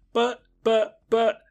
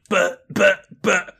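First: High-pitched mock stammering; flustered, halting imitation of a boy; imitated stutter. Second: Louder, jeering copy of stammering; taunting imitation with raised pitch; mocking stutter. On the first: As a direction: stammer helplessly in a raised voice. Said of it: "Tim starts to stutter". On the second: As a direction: throw the stammer back, high and punchy. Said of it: "the rabbit mocks him going".

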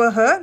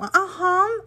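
First: "aham" said the usual Brazilian way, short and plain; "aham" as any Brazilian would say it, nothing added. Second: "aham" drawn out and pitched higher, American-style; "aham" stretched slowly with an American lilt. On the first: Showing viewers the normal Brazilian "aham", plain. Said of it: "não é o aham brasileiro". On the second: Contrasting it with the Brazilian one, in a slow American accent. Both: Shown as a demonstration.

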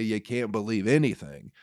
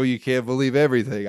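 First: Said in the usual way. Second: A loud, preachy take on the saying with stress on "everything"; mock know-it-all. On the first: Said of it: "I say". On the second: Comic scoffing back at people who say it, with a loud, smug stress on "everything". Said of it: "People go".

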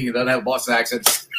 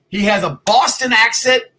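First: Said in the usual way. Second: Joking put-on Boston accent, drawn out; mock Boston accent. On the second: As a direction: tease the guest in a fake Boston accent. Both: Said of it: "Totally kidding".

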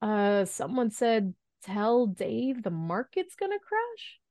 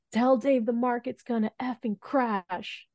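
First: Slow, higher, timidly questioning; hesitant mock-nervous delivery, rising at the end; imitated shaky voice. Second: High, slow mock yell without much volume; retold yell. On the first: Intern relays bad news to the room, imitated shaky voice. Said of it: "in a very shaky voice". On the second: Caller yells market news to the intern, mock yell. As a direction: imitate an urgent order yelled down the phone. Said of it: "someone just yells at me".

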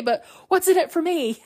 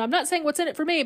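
First: High, emphatic mock whine; hammed-up indignant plea, pitch soaring; upset demand. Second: Quick, high brush-off, acting put out; upset disclaimer. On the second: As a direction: rush through it as a mock disclaimer. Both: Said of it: "Ray gets really upset".

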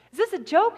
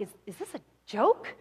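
First: Higher, incredulous question, acted; stunned. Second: Low, halting disbelief, acted; stunned. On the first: Boss questioning his manager's terrible news, acting stunned and incredulous. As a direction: raise the pitch in mock disbelief. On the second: Boss hearing his businesses are gone, acting stunned and low. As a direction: stammer it quietly as if lightly dazed. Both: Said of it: "he's stunned".

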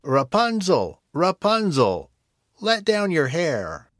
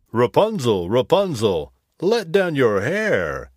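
First: High, slow witch call up the tower. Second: Prince calling. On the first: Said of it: "calling out". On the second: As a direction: call up clearly as the prince. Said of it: "he called". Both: Acted.

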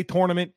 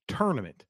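First: "tournament" with TOR as first syllable; own "tournament". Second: "tournament" with TUR as first syllable; wife's "tournament". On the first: Shown as a demonstration. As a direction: start "tournament" like tore. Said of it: "I say tournament". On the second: Retold or imitated. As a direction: start "tournament" like turn. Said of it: "My wife seems to believe".

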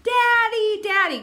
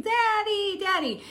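First: Put-on high, louder toddler calling out. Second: Put-on high toddler voice calling out. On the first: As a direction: wail for daddy like a toddler. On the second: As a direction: call for daddy like a little girl.

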